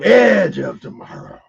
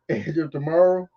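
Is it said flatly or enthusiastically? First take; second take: enthusiastically; flatly. First: It is said with more enthusiasm. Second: It is said flatly, without enthusiasm.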